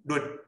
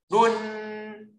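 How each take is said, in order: First: 润 brief with a t stop; short tone. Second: 润 high, level and drawn out; long tone. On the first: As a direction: cut 润 off at once. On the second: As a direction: hold 润 on a high note. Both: Shown as a demonstration. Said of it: "长音、短音哦".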